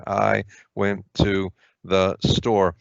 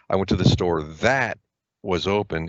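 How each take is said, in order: First: "I went to the store" read at a slow, careful pace; slow demo reading. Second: A slight pause after "that", then "was open" said as one requisite phrase; phrase read with emphasis. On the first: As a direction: spell out "I went to the store" word by word, slowly. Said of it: "no punctuation separating them". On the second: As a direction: set "was open" apart, pausing after "that". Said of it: "is a requisite phrase". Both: Shown as a demonstration.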